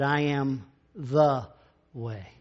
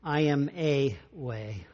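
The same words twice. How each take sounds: First: Slow, lean hard on "the" before "way"; "I am the way" with "the" drawn out and weighted; stress on THE. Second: "I am a way" said slowly, leaning on "a"; slow mock misquote with "a" set apart; "a way" said deliberately, as the wrong word; wrong version. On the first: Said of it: "He said". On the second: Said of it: "he didn't say". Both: Shown as a demonstration.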